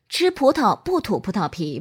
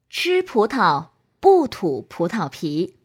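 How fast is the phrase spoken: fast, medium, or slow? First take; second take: medium; slow. First: The phrase is spoken at a medium speed. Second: The phrase is spoken at a slow speed. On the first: "中速" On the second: "慢速"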